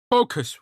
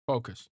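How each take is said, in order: First: Higher, louder snap to attention; loud self-command. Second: Quiet self-reminder. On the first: Streamer telling himself to get back on topic, loud and higher. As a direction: bark it to yourself to refocus. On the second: Streamer quietly reminding himself to focus, low and soft. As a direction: lower and softer, under the breath. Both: Real, not acted.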